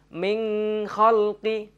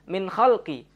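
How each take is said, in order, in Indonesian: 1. Huruf n diucapkan dengan dengung. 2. Huruf n kabur dan hampir tidak terucap. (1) "Tidak boleh dibaca dengung" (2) "Ataupun samar"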